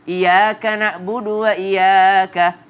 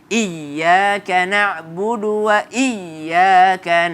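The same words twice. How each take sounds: First: The y sound is short and single. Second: The y sound is pressed and doubled. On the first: The speaker calls it wrong. "jangan ... Salah" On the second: The speaker calls it right. "tapi ditempel"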